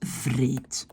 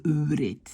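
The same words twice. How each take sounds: First: Vreet starting with a clear v; vreet, lower demo word opening on v. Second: Vreet opening on a rounded w; wrong w before r. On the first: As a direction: say vreet with buzzing v before r. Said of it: "on prononce comme un V". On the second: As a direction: say vreet as oo-reet. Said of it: "Au lieu de vreet". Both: Shown as a demonstration.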